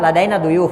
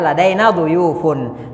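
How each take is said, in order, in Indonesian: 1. Kata berhenti tanpa akhiran '-un'. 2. Akhiran sengau '-un' dibaca penuh. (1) "kalau percakapan biasa ladaina duyuf" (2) "sebaiknya dibaca gitu"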